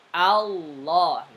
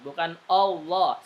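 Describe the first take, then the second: First: The first vowel sounds like a. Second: The first vowel sounds like o. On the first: The speaker calls it right. "Tapi a, Allah, a dulu" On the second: The speaker calls it wrong. "Bukan o, ... salah"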